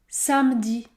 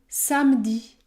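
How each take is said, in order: Both takes have the same delivery.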